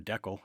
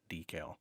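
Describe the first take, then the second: First: The word is said the northern way. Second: The word is said the non-northern way.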